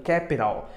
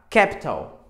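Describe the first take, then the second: First: American "capital", lower, t as a quick tap; American pronunciation. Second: British "capital", louder, with a crisp true t; British pronunciation. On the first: Teacher showing the American variant, American pronunciation. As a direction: say "capital" American style, KAP-i-rul. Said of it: "no americano". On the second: Teacher showing the T sounds like T, British pronunciation. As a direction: say "capital" British style, KAP-tul. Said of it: "No britânico você usa capital". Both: Shown as a demonstration.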